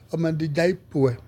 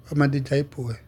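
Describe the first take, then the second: First: Slow, deliberate, each syllable laid out; slow and careful "wa ma di jai poe"; slow model line. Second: Said in the usual way. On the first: Shown as a demonstration. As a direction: say "wa ma di jai poe" slowly for the class to copy.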